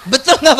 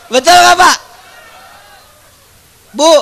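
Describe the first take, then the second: First: Said in the usual way. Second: Demanding an answer, raised voice; louder call to the crowd. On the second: Real, not acted. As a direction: repeat it louder, pressing for an answer. Preacher repeats question, louder.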